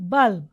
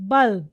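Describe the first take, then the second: First: The final b is very faint, barely heard. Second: The final b is very faint, barely heard.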